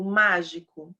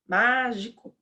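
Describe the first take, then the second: First: Said in the usual way. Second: "Mágico" with the MÁ drawn out; stress on MÁ de "Mágico". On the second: Shown as a demonstration. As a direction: lean hard on the first syllable of "Mágico". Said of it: "no má, né?". ("Mágico" com a sílaba MÁ forte e alongada)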